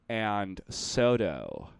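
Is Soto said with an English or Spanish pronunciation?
English. Soto is said with an English-style pronunciation. This is how the automated announcement says it. The speaker calls it wrong. "they'll go like"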